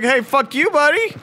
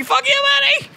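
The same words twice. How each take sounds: First: High-pitched mock taunt, rising at the end; mock taunting game. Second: Squealing, very high mock taunt; mock furious game. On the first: Game insulting the player, high mock taunt. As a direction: play the game picking a fight. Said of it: "the game is like". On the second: Game insulting the player back, squealed mock fury. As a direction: escalate the taunt into a shrieky squeal. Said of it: "And it's like".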